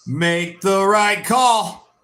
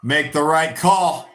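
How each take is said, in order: First: Drawn out, each word stretched; slow pleading. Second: Said in the usual way. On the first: Real, not acted. Fan begging the referee, slow and drawn out. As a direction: slowly beg the ref for the call.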